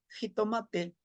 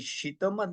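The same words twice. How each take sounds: First: Jitomate with a j start and TE ending; "jitomate" ending in a clear vowel, te; Spanish-adapted pronunciation. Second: Xitomatl with a sh start and voiceless TL ending; "xitomatl" closed on a breathy tl, no final vowel; Nahuatl TL ending. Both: Shown as a demonstration. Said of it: "no podían pronunciar el T L".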